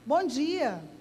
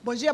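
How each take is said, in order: First: It is a warm, sincere, deliberate greeting. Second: It is a quick, mechanical, rote greeting.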